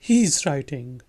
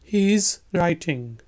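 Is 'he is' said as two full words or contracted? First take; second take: contracted; full. First: He is is contracted to he's, said quickly. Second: He is is said fully, at normal speed.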